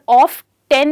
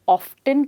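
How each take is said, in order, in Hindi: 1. अंत संख्या ten जैसा बोला जाता है। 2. t एक हल्के अंत के साथ बोला जाता है। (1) "पर ऑफ टेन नहीं कह सकते हैं" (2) "या ऑफ्टन कह सकते हैं"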